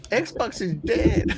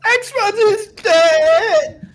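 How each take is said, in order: First: Higher, slow echo through laughter; half-strength mock troll, drawn out; imitating the troll voice. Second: Very high, drawn-out squeal; strained high wail, stretched right out; put-on troll voice. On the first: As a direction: copy the squeal lightly while laughing. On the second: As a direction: screech it slowly like a mock troll. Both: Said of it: "how that voice you made".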